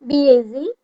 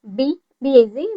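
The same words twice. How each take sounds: First: Said in the usual way. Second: Slow spelling. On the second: Shown as a demonstration. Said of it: "बी से क्या बनेगा?".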